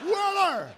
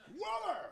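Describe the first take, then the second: First: Loud, high manic yell of a name; louder Christopher Lloyd impression calling the name. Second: High, strained shout of a name; impersonating Christopher Lloyd calling out. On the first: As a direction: shout it like the wild actor. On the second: Retold or imitated. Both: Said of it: "You know that Lloyd voice?".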